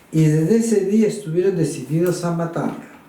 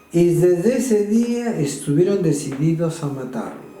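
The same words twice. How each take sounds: No difference in how they are said.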